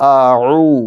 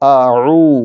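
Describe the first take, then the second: First: The throat sound between the vowels is softened. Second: The same.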